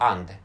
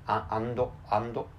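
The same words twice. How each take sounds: First: It is said with an English accent. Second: It is said with a Japanese accent. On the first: The speaker calls it right. "the correct pronunciation of English" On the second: The speaker calls it wrong. "pronouncing and in Japanese manner"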